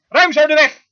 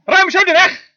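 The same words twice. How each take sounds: First: Loud preached command; commanding call. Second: "Ruim zo de weg" again, pitched higher and loud; higher repeated command. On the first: Preacher booming God's order, commanding. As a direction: call it out for the road to clear. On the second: Preacher repeating God's order to his flock, rising and loud. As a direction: lift it up and ring it out. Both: Acted.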